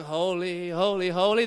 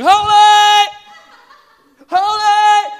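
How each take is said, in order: First: Said in the usual way. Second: A much higher, much louder ringing shout of holy; awed cry. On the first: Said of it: "are not going". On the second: Shown as a demonstration. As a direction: cry out holy in overwhelming awe. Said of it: "They're going".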